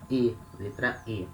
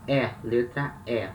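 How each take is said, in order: First: Both "E" as a narrow "ay" without glide; name the letter "E" with a closed vowel; São Paulo closed E. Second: Both "E" as open "eh", as in "bet"; name the letter "E" with an open vowel; Rio open E. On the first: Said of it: "in São Paulo". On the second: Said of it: "In Rio". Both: Shown as a demonstration.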